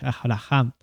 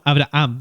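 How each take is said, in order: First: The middle h is a raspy Spanish j sound. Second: The middle h is silent, with no rasp. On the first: This follows the Hebrew pronunciation. "Se pronuncia como si fuese medio como una J" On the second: This is the everyday way people say it. "nosotros generalmente siempre decimos Abraham"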